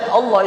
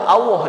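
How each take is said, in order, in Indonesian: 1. Kata "Allah" diucapkan dengan cara standar yang biasa. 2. Kata "Allah" diucapkan dengan logat Jawa. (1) "Mengucap Allah" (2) "itu Allah dia"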